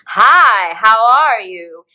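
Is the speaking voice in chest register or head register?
chest. A heavier, lower voice resonating in the chest. "is chest register in speech"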